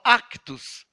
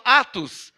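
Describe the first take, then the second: First: "Actos" with a K sound before the T; archaic pronunciation. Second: Said in the usual way. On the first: Shown as a demonstration. Preacher quoting the old version, "Actos" said as "ak-tos". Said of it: "com C mudo". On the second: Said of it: "A nossa Bíblia fala".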